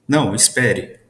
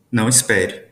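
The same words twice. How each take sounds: First: Não, espere. with a pause after Não. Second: Não espere. run together; no pause. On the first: Teacher reading Não, espere. with a pause after Não. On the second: Teacher reading Não espere. without a break. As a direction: say Não espere. in one breath. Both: Shown as a demonstration. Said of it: "Percebam a entonação".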